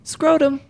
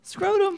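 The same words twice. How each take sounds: First: It is said in a plain, flat tone. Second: It is said in a sweet, coaxing tone.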